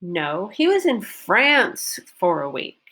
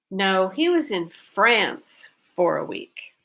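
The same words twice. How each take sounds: First: "France" stressed, as a correction; correcting "Spain", stress on "France". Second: "France" stressed, said slow; slow correction with "France" lifted; stress on France, slowly. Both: Shown as a demonstration. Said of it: "France is correcting Spain".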